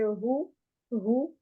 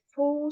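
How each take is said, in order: First: "rou" slow, breathed from deep down; deeper light h. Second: "fou" with strong throat friction; more pronounced h. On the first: Teacher explaining a deeper sound, slow breathed "rou". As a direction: draw "rou" up from low in the throat. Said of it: "c'est plus profond". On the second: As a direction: rasp the opening of "fou" heavily. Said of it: "il y a plus de prononciation". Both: Shown as a demonstration.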